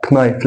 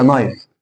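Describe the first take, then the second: First: كنايف with k sounded before n; common mistaken K. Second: نايف begun on n alone; silent K. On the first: Retold or imitated. Teacher quoting many people's mistake, K sounded. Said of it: "بتقولها كنايف". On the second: Shown as a demonstration. Teacher correcting a common mistake, silent K. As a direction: drop the k entirely in نايف. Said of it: "لا هي نايف".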